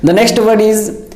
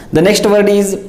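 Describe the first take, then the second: No difference in how they are said.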